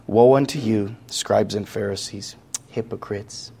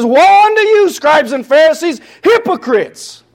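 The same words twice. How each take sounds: First: Soft and much quieter, fading to near silence; soft meek voice. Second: Much higher and louder, hurling it at them; outraged rebuke. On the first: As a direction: say it like a timid, gentle man who won't offend. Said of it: "do we really think that Jesus said it like this". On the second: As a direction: denounce them at full force. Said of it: "Do we really think he said it like that? No". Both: Shown as a demonstration.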